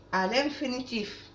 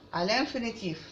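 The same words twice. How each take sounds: The two takes are said the same way.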